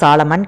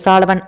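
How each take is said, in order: First: The middle consonant is an 'm' sound. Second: The middle consonant is a 'v' sound. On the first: The speaker calls it wrong. "சாலமன் கிடையாது" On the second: The speaker calls it right. "சாலவன் அப்படிங்கிற மாதிரி தான் அதை pronounce பண்ணுறாங்க"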